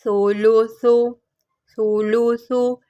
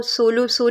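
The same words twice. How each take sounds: First: सोलू सु with a soft lisped th for each s, no whistle; soft th sound. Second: सोलू सु with sharp whistled s sounds; wrong whistling s. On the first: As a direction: model सोलू सु gently, tongue softening every s into th. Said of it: "इसको पढ़ना है नरमी से". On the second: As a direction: show the mistake: सोलू सु quickly, hissing each s. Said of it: "इसको सोलू सु नहीं पढ़ना". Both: Shown as a demonstration.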